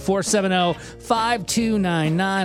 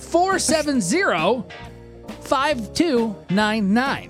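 First: The number is said quickly. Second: The number is said at normal speed.

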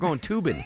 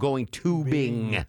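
First: The final ng sound is dropped. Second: The final ng sound is clearly pronounced. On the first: It sounds like a person's name. The speaker calls it wrong. "You can't say" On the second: It refers to the water activity. The speaker calls it right. "you have to really enunciate the NG at the end"

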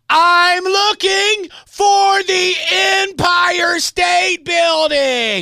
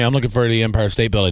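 First: It is said slowly and loudly, almost shouted. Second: It is said at a normal pace and volume.

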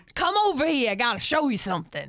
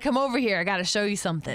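First: It is said imitating the angry guy's voice. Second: It is said in her own normal voice.

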